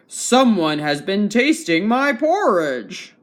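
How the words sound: It is spoken in a big, deep voice. "said in his great big voice"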